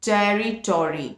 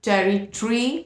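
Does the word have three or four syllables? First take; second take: four; three. First: The word is said with four syllables. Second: The word is said with three syllables. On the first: "in American it is territory" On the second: "in British it is territory"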